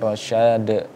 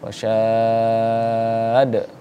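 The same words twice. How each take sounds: First: The vowel is short before a quick final d. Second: The vowel is lengthened, then the d bounces. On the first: The speaker calls it wrong. "Jangan kemudian" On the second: The speaker calls it right. "Selesai ke dulu mad arid li sukunnya, baru kemudian kita pantulkan huruf dalnya"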